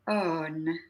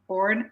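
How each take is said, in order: First: The name is pronounced the Swedish way. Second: The name is pronounced the English way. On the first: "but in Swedish you say on" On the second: "you can say orn"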